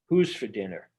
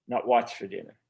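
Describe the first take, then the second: First: "Who's" hit hard and falling; stress on who's. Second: "what's" stressed, falling in contrast. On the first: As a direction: lean on "Who's" to make them think. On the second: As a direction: punch "what's" as the wrong word. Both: Shown as a demonstration. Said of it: "the other line that I think is really important".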